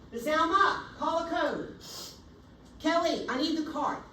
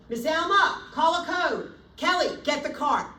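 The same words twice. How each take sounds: First: Loud, high call for help; raised urgent shout; urgent code call. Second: Loud, high, commanding call for help; sharp urgent shout to the team; urgent code call. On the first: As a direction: command the team to act now. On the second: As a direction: shout orders across the room. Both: Shown as a demonstration. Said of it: "exactly how I would say it".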